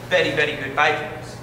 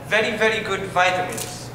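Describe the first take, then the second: First: It is said with a Castilian Spanish pronunciation. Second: It is said with an English pronunciation.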